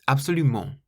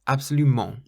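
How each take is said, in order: The two takes are said the same way.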